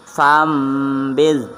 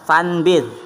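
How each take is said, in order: First: The nasal before the b sounds like m. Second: The nasal before the b sounds like n. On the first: The speaker calls it right. "tapi fambid" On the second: The speaker calls it wrong. "bukan bahasanya fanbid"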